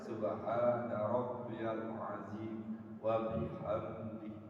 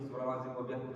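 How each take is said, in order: First: It is recited slowly. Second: It is recited fast.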